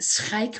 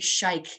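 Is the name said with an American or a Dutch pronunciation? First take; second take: Dutch; American. First: It is said with a harsh throaty Dutch sound. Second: It is said with a smooth American pronunciation. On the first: "but Schaik with the ugly sound" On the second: "so the Americans say Schaik"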